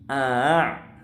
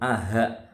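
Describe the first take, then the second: First: The second vowel starts softly, between stop and h. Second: The second vowel starts with a clear h sound. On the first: The speaker calls it right. "tapi a', meringankan hamzah yang kedua" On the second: The speaker calls it wrong. "atau aha"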